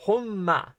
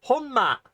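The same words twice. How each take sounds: First: Honma as a settled, matter-of-fact repeat; calmer honma. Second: Honma shot up high and loud, falling hard at the end; excited honma. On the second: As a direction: exclaim honma high and loud with a sharp fall. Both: Shown as a demonstration. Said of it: "We'll start with".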